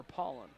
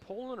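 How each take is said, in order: First: Paulin said as PAH-lin, with an open "ah"; first vowel as AH. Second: Paulin said as POH-lin, with a long O; first vowel as long O. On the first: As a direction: say the first syllable of Paulin like "pall". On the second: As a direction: say the first syllable of Paulin like "pole". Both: Shown as a demonstration. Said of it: "Is it Paulin or Paulin?".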